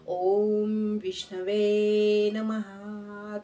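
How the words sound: It is said slowly, rhythmically and with deep feeling. The words come from the heart with full meaning. The speaker calls it right. "तो विष्णूच्या काळजाला भिडला पाहिजे तुमचा मंत्र"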